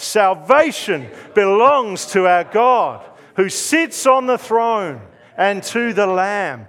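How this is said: It is said loudly, with real conviction.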